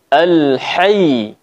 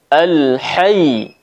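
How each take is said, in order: No difference in how they are said.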